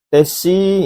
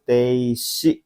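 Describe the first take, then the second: First: The vowel after the first t is short. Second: The vowel after the first t is long. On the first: The speaker calls it wrong. "Tesi ini salah ya, i-nya bukan di sini" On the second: The speaker calls it right. "pilihan keempat yaitu teishi ya"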